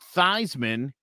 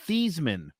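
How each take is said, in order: First: The name rhymes with Heisman. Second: The name does not rhyme with Heisman. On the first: The pronunciation was changed to help an award campaign. "they started pronouncing it Theismann because it rhymed with Heisman" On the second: This is the name's original pronunciation. "his name was actually Joe Theismann"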